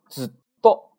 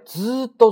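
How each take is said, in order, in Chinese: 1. 最后一个音节之前有一个短暂的空拍。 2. 第一个元音拉长，中间没有停顿。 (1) "你看是不是空了一拍？" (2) "它不是空的，它拉长了"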